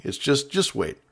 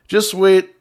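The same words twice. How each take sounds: First: Said in the usual way. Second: "Just wait." punched louder and higher; stress on wait. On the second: Shown as a demonstration. Host scolding early decorators: "Just wait." stressed louder and higher. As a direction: hit the word "wait" hard.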